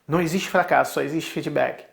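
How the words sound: It is said in a neutral tone.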